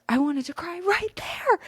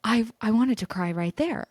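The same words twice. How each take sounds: First: Hammed-up high teary whine; high mock wail. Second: Said in the usual way. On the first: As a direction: repeat "I wanted to cry right there" in a much higher, squeaky, near-tearful voice.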